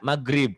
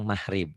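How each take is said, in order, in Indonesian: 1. Bunyi g di tengah keras dan kuat. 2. Bunyi g di tengah lemah, hampir seperti h. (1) "Kalau orang Sunda maghrib keras" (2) "kalau orang Jawa G-nya kadang-kadang mahrib"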